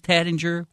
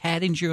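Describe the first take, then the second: First: It is said in a Southern American accent. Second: It is said in an East Coast American accent. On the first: "[name]'s having fun with the Southern accent thing" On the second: "Tattinger on the East Coast"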